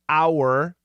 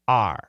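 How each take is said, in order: First: The word is said fully, like 'hour'. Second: The word is reduced, sounding like 'are'. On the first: This is the careful form. "Perfect pronunciation is our" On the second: This is the everyday form. "daily pronunciation"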